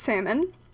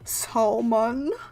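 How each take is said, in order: First: The L sound is not pronounced. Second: The L sound is clearly pronounced. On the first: The speaker calls it right. "I don't pronounce the L" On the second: The speaker calls it wrong. "accentuates the L like salmon"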